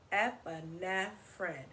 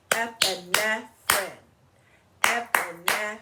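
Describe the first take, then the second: First: Said in the usual way. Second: "Epinephrine" louder, split into clapped syllables. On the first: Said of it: "Four syllables in the word epinephrine". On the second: Shown as a demonstration. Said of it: "Let's clap it, clap it out in syllables".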